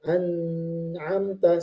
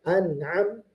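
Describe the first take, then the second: First: A pause breaks the word after the n. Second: The word flows through without any pause. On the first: The speaker calls it wrong. "memberikan jeda ... salah" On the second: The speaker calls it right. "tidak boleh ada jeda, harus langsung"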